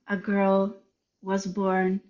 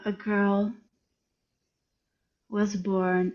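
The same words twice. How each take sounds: First: The phrase is read at a slow pace. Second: The phrase is read very slowly with long silences. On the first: The speaker calls it wrong. "So I, I read it slower" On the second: The speaker calls it right. "much slower"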